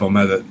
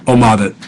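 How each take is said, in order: First: The middle syllable has an e vowel. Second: The middle syllable has an a vowel. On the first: The word comes in ordinary running context. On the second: The word comes at a pause or verse break.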